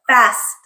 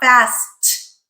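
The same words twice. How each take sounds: First: The final t ends with only a tiny puff. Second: The final t ends with a strong puff of air. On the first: The speaker calls it right. "soft, tiny puff of air" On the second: The speaker calls it wrong. "not the aspirated T, not fast"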